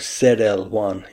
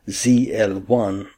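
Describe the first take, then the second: First: The letter Z is pronounced zed. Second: The letter Z is pronounced zee. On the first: This is how it is said outside the U.S. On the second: This is how it is said inside the U.S.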